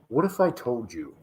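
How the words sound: It is said in a dramatic 30 for 30 narrator voice.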